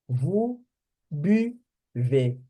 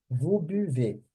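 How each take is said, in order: First: "vous buvez" broken up, pausing between words; pursed-lip French U. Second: "Vous buvez" joined up as one phrase; pouted French U. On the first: Teacher drilling the U for students, careful broken-up demo. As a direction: sound out "buvez" with rounded lips on U. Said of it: "Toda vez que tiver o U". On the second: Teacher putting the drilled U back together, connected demo. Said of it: "tem que fazer o biquinho". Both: Shown as a demonstration.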